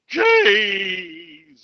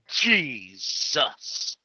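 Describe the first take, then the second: First: It is said in a normal voice. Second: It is said in a creepy voice.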